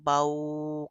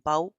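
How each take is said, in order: First: The syllable is drawn out long. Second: The syllable is cut off with a jerk. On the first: "लंबा बिल्कुल भी नहीं करना" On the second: "झटका भी नहीं देना"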